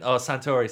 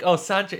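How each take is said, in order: First: "Santori" said in three syllables, san-TO-ree, louder; corrected name. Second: "Santry" said short, in two syllables, SAN-tree, a bit louder and higher; wrong name said. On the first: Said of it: "it's called Suntory whiskey". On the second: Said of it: "I randomly said Santry". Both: Retold or imitated.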